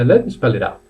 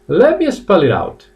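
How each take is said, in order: First: The phrase is said quickly and smoothly. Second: The phrase is said slowly and carefully.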